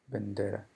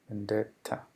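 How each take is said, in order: First: The middle T is soft, almost like a D. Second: The middle T is crisp and strongly pronounced.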